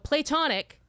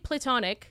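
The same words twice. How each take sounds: First: The word is louder, with its first part stressed. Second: The word is said at normal volume. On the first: "it sounds louder" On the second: "that sounds normal"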